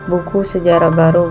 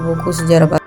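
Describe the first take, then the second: First: There is a pause right after buku. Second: There is a pause right after sejarah. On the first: It is a book about new history. "Kalimat pertama bermakna buku mengenal sejarah baru" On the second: It is a new book about history. "kalimat kedua bermakna buku baru mengenal sejarah"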